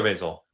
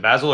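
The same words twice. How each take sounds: First: "Basil" with first syllable like bay; long-A pronunciation. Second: "Basil" with a short first A, rhyming with dazzle; short-A pronunciation. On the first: Host checking a guest's name, "Basil" said BAY-zul. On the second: Host checking a guest's name, "Basil" said BAZ-ul. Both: Shown as a demonstration. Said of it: "Is it Basil or Basil".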